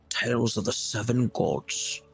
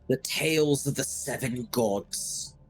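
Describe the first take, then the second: First: It is said in a creepy priest voice. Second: It is said in his normal voice.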